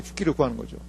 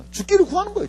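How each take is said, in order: First: 죽기를 구하는 거죠 lower and softer; quiet repeat. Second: 죽기를 raised high and pressed; stress on 죽기를. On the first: Preacher echoing to the congregation, low quiet repeat. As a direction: drop 죽기를 low and soft. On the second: Preacher stressing Elijah's wish, 죽기를 raised. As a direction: lean on 죽기를, pitch up. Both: Shown as a demonstration.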